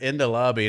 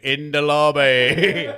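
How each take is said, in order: First: Said in the usual way. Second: Loud, slow, drawn-out British parroting; mock British accent. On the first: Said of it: "I was just tuned out and heard". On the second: Phrase stuck in his brain after overhearing it, mock British accent. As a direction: blurt it out stretched in a silly British accent. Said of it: "doing it in a British accent".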